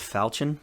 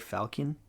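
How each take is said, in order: First: The word is said unlike the bird name. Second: The word is said like the bird name. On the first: This is the accepted pronunciation. The speaker calls it right. "I know it's pronounced falchion" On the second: This is the speaker's personal pronunciation. The speaker calls it wrong. "I say falcon"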